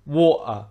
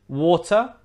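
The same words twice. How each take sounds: First: Water with glottal stop for T. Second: Water with a clear T, pitched up; T sounded. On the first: Teacher contrasting the takes, water with T dropped. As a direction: cut the air instead of the T in water. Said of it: "replaced with a glottal stop". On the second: Teacher setting up the contrast, water with clear T. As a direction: say water with the T pronounced. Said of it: "If we take away the T". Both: Shown as a demonstration.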